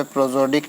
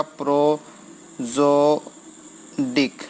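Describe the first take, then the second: First: Said in the usual way. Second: "प्रोजोडिक" very slowly as pro, zo, dik; syllable by syllable. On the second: Shown as a demonstration. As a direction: dictate "प्रोजोडिक" with long gaps between syllables. Teacher spells out term by syllable. ("प्रोजोडिक" को प्रो-ज़ो-डिक तोड़कर, धीरे)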